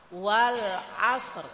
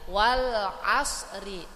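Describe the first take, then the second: First: The word ends on a silenced final consonant. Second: The word ends with a short i vowel. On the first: The reading stops at the end of the verse. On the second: The reading continues without a stop.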